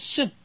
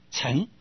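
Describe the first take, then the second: First: The word is said with a falling tone. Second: The word is said with a rising tone. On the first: It means the vehicle that is ridden. "念成圣啊，就是去圣，就是四圣啊" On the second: It means the one who rides. "平声是什么呢？二声，就是念成什么呢？念成乘"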